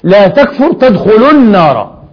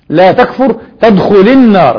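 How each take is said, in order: First: The verb tadkhul ends with a short u vowel. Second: The verb tadkhul ends silently, with no final vowel. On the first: Entering the fire is not a result of the prohibition. The speaker calls it right. "طب ما الصحيح؟" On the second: Entering the fire becomes the result of not disbelieving. The speaker calls it wrong. "بالجزم"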